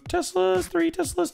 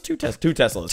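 First: High, very slow sing-song squeak on "two Teslas"; silly high voice. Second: Said in the usual way. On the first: Pretend.

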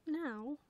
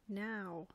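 First: Higher, doubtful question; small high voice querying the order; questioning owlet. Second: Even reply, falling at the end; mother owl's answer. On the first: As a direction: ask it as a hesitant little owl. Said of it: "said Plop". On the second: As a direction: confirm it calmly as the mother. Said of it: "said his mother". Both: A narrator's reading.

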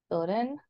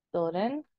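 No difference in how they are said.

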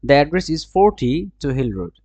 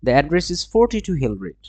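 First: "forty-two" split: forty, break, two Hill Road; slow down and part forty from two in "forty-two"; pause after forty. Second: "forty-two" said as one unbroken number; joined forty-two. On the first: Teacher showing how to say forty, two Hill Road, split phrasing. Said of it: "এভাবে বলবে". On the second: Teacher showing forty-two Hill Road, joined as one number. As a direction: run forty straight into two in "forty-two". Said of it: "আর এটা বলবে কি?". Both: Shown as a demonstration.

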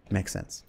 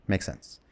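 First: Said in the usual way. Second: Unvoiced whisper, trailing off; breathy resigned whisper to himself. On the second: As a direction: whisper it like quiet acceptance. Resigned self-talk, repeated softly.

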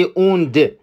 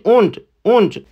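First: اوند said with a doubled, held d sound; wrong doubled d. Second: اوند said with a short, single d; correct single d. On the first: Teacher shows learners the wrong way: doubled d in اوند. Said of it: "دش رو نباید با تشدید تلفظ بکنید". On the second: Teacher shows learners the right way: single d in اوند. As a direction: give the right اوند, the d light and quick. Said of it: "نباید بگی اوند. بگید اوند". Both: Shown as a demonstration.

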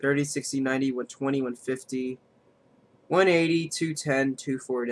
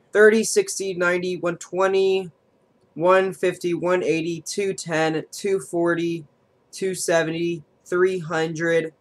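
First: Flat monotone counting; robot voice. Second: Higher, eager counting; excited counting. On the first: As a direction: drone the numbers like a robot. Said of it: "I sound like a robot right now". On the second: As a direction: count up with rising hope. Counting damage toward the win. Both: Real, not acted.

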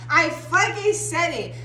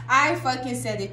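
First: "fucking" punched, slow and emphatic; stress on fucking. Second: Said in the usual way. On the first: Real, not acted. Reader hyping viewers, emphatic slow repeat. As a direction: drag out "I fucking said it" slowly.

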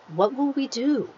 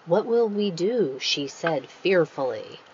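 First: Mildly fearful. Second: Said in the usual way. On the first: Shown as a demonstration. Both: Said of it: "much better to use action".

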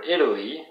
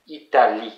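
First: Said in the usual way. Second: French "Italie", final "lie" stressed; French pronunciation. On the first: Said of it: "And for Italy". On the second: Shown as a demonstration. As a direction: demonstrate "Italie" with weight at the end. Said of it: "in French, you say Italie".

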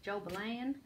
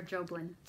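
First: JOBELAN drawled in a country accent, rising at the end; country twang stretching the last syllable of Jobelan. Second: Said in the usual way. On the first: Shown as a demonstration. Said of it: "with a country accent". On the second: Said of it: "I'm saying it like a".

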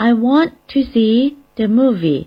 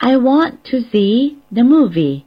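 First: I want to see the movie repeated slowly and clearly; teacher repeating the second sentence; model English sentence. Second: I want to see the movie said slowly and clearly in English; teacher demonstrating a second sentence; model English sentence. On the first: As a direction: repeat it as a careful model for learners. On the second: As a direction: model the sentence carefully for learners. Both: Shown as a demonstration. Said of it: "หรืออีกประโยคนึงนะคะ".

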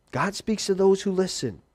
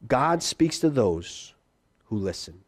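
First: Said in the usual way. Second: Slow emphatic statement. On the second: Shown as a demonstration.

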